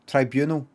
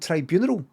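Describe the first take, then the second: First: It is said without rhyming with funeral. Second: It is said rhyming with funeral. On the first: The speaker calls it right. "only recently learned to pronounce it properly" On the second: The speaker calls it wrong. "I thought I was hearing tribunal, like funeral"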